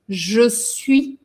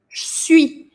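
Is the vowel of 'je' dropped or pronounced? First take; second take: pronounced; dropped. First: The vowel of 'je' is fully pronounced. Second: The vowel of 'je' is dropped entirely. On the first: This is the form taught in schools. "Nas escolas, em geral, você vai aprender a falar je suis" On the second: This is the everyday street form. "A gente praticamente come este E aqui"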